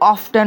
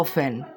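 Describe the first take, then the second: First: The t sound is pronounced in the middle. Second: The t sound is left out entirely. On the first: The speaker calls it wrong. "এটা কিন্তু অফটেন হবে না" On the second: The speaker calls it right. "এটা কি হবে অফেন"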